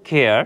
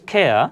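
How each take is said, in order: First: The word ends with a pronounced r sound. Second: The word ends without any r sound. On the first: The speaker calls it wrong. "আমরা সাধারণভাবে উচ্চারণ কি করে থাকি কেয়ার" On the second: The speaker calls it right. "সেক্ষেত্রে আমরা আর ই উচ্চারণ করব না"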